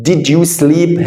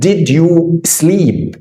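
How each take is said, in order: First: Said in the usual way. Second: "did you sleep" spelled out slowly, word by word; slow drill. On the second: Shown as a demonstration. Teacher slowly modelling "did you sleep" for the student. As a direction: stretch "did you sleep" for the learner to follow. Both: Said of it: "عايز أقول له".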